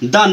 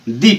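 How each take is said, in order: First: The vowel is a short, neutral 'uh'. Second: The vowel is a long 'ee'. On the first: The speaker calls it wrong. "द न पढ़ के" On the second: The speaker calls it right. "दी पढ़ा जाता है"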